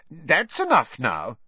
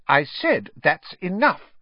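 First: Higher, slow motherly warning; firm scolding. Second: High, louder, slow telling-off; exasperated scolding. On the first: Mother interrupting her twins' teasing, firm scolding. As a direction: put a stop to the silliness. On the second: Mother stopping her twins for the second time, exasperated scolding. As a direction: lay down the law to the twins. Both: A narrator's reading.

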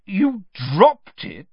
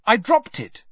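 First: Slow, loud, incredulous echo; disbelief. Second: Said in the usual way. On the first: A narrator's reading. Official repeating boy's claim, disbelieving. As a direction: stretch out DROPPED in disbelief. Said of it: "repeated Mister Diggory in disbelief".

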